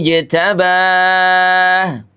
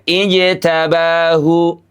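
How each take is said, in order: First: The final vowel is dropped, leaving silence. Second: The final vowel is fully voiced. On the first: The speaker calls it right. "Atau dengan ismam" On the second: The speaker calls it wrong. "Tidak ijtabahu"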